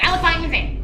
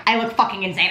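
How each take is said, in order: First: High squeal. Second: Said in the usual way. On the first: Shown as a demonstration. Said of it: "repeated in high squeal". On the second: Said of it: "repeats it higher".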